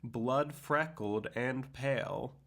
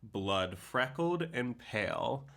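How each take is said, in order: First: The word blood carries extra emphasis. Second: The word blood carries no special emphasis.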